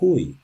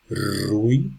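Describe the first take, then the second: First: The name begins with an H sound. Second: The name begins with an R sound. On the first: "we say Rui" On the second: "instead of saying"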